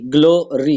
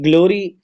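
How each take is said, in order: First: glory split into glo and ri; two separate beats on glory; syllable by syllable. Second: Said in the usual way. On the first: Shown as a demonstration. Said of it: "G L O glow और R Y री". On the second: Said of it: "टू syllable है".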